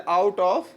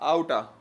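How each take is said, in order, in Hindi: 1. शब्द 'of' पूरा बोला जाता है। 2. शब्द 'of' एक छोटे स्वर में घट जाता है।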